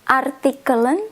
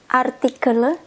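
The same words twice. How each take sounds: First: The final n sound is clearly pronounced. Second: The final n sound is left off. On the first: "I will read with the end" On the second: "then I will read without the end"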